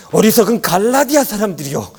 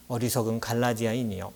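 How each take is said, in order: First: High, loud dramatic rebuke; impassioned voice-actor tone. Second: Said in the usual way. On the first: Shown as a demonstration. Imitating a voice actor reading Galatians, impassioned anger. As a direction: cry out like an indignant audio-drama apostle. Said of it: "막 그 성우의 그 톤 있잖아요". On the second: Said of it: "이렇게 읽는 게 아니에요".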